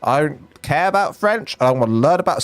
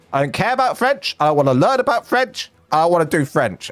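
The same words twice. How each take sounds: First: Said in the usual way. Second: Put-on high, whiny teenage refusal; whiny kid voice. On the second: Shown as a demonstration. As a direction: whine it like a sulky teen. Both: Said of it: "sorry, there's any French people".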